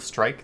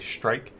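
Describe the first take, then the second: First: The opening cluster has the usual standard sound. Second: The opening cluster has an altered, shifted sound. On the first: The speaker calls it right. "instead of strike" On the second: The speaker calls it wrong. "they'll say strike"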